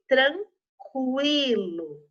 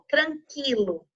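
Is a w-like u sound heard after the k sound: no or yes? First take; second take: yes; no. First: A w-like u sound follows the k sound. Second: The k sound goes straight into the vowel. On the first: The speaker calls it right. "Também ouvi um pouquinho o som do U" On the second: The speaker calls it wrong. "sem ouvir o som do U"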